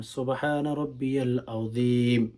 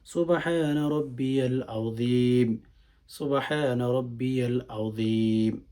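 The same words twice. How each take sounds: First: Said in the usual way. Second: Slow, measured tasbih, each phrase unhurried; slowly. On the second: Shown as a demonstration. Teacher showing how to say the ruku tasbih slowly, unhurried. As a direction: take your time on every সুবহানা রাব্বিয়াল আযীম. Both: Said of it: "আস্তে আস্তে, ধীরে ধীরে".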